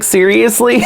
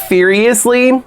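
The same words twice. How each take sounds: First: Said in the usual way. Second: "Seriously" said with an F at the start, as "feeriously"; punning pronunciation. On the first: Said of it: "Like, seriously". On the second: Shown as a demonstration. Fan pointing out the diary's pun, "Seriously" starting with F. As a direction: swap the S of "Seriously" for an F. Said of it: "they use all these puns".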